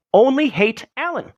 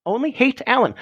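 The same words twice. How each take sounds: First: "Only" leaned on hard, the rest falling away; first take hits "Only" with a higher pitch; stress on ONLY. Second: Second take moves the punch to "hate"; stress on HATE. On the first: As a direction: put the weight on "Only". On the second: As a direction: put the weight on "hate" this time. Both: Shown as a demonstration. Repeating the line, shifting emphasis.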